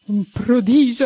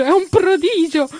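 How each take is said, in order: First: Meraviglia. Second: "prodigio" gridato molto più in alto e più forte; meraviglia crescente. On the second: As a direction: esplode d'entusiasmo su "è un prodigio". (Mustacchio ripete "prodigio" al culmine della meraviglia, quasi gridando) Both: Acted. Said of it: "dice Mustacchio".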